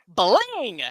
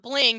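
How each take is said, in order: First: The word is said loudly and excitedly. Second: The word is said flatly, without excitement. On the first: The speaker calls it right. "say it like that so the exclamation point comes out" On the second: The speaker calls it wrong. "she's not bling"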